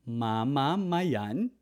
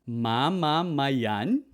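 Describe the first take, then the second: Both takes have the same delivery.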